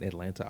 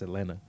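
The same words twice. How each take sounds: First: The middle T is clearly pronounced. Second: The middle T is dropped and silent. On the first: It imitates how an outsider says the city name. The speaker calls it wrong. "My mom be saying Atlanta" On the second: It is how locals say the city name. The speaker calls it right. "you're not supposed to pronounce that T"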